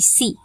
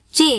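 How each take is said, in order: First: The letter is named the English way. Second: The letter is named the Indonesian way.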